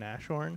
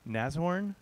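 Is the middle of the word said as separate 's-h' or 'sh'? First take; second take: sh; separate s-h. First: The middle is said with a sh sound. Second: The s and h are said separately. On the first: The speaker calls it wrong. "with two H's and a sh sound, which is totally incorrect" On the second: The speaker calls it right. "I just learned how to pronounce it"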